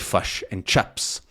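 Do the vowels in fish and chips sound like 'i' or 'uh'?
uh. The vowels in both words sound like uh. "they might say fush and chups"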